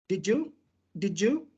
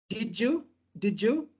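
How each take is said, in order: Both takes have the same delivery.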